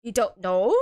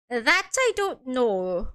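First: "know" rising sharply at the end; incredulous question. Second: Slow, lightly Irish admission; attempted Irish accent. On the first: Acted. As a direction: lower start, then lift "know" into a question. Other figure questions the defendant. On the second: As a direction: draw it out with a faint Irish lilt. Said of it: "doesn't sound Irish at all".

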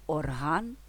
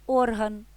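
First: ОрГАН, stress at the end, rising tune; stress on last syllable. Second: ОРган, stress at the start, higher pitch; stress on first syllable. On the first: (наголос на останній склад: орГАН) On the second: (наголос на перший склад: ОРган) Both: Shown as a demonstration. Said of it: "залежить від наголосу".

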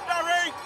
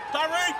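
The two takes are said the same way.

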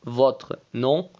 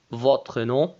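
The two takes are said the same way.

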